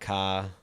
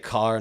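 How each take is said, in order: First: The final r sound is dropped. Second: The final r sound is clearly pronounced. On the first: This is how someone from Maine would say it. "not ca" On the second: This is the speaker's own everyday way of saying it. "I say car"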